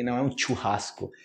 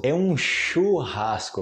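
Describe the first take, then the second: First: "churrasco" with a hard tch; tch sound. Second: "churrasco" slowly with a soft sh. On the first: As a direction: say "churrasco" as "tchurrasco". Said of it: "a pronúncia do C H". ("churrasco" com tch) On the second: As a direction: stretch "churrasco" with sh, not tch. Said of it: "slow correct churrasco demo". ("churrasco" devagar, com x) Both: Shown as a demonstration.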